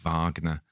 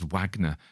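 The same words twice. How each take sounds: First: The name is said with a non-American pronunciation. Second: The name is said with an American pronunciation. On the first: The speaker calls it right. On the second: The speaker calls it wrong.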